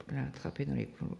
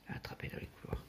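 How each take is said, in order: First: Said in the usual way. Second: Fast whispered aside, almost no voice; breathy conspiratorial whisper. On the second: Retold or imitated. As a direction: hush it like a secret, quickly. Same words repeated, whispered.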